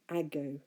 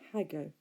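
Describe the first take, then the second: First: The word begins directly with a vowel. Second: The word begins with an h sound. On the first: The speaker calls it right. "So I say ago" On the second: The speaker calls it wrong. "not hago"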